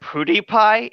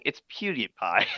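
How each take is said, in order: First: PewDiePie said as POO-dee-pie, high and questioning; mimicked mispronunciation. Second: PewDiePie said as PYOO-dee-pie, lower and softer; corrected pronunciation. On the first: Mocking a friend's slip, PewDiePie mispronounced as POO-dee-pie. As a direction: echo PewDiePie with an "oo" and no y sound. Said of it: "Don't make fun of me". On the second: Shown as a demonstration. Correcting a friend, PewDiePie said as PYOO-dee-pie. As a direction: say PewDiePie with a y glide after the P.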